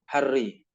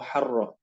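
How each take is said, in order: First: The word ends in an i vowel. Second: The word ends in an a vowel. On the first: The speaker calls it wrong. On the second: The speaker calls it right.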